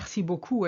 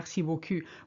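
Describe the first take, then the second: First: The last vowel is a rounded 'oo' sound. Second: The last vowel is a fronted French 'u' sound. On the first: Thank you very much. The speaker calls it right. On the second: Thank you, nice backside. The speaker calls it wrong.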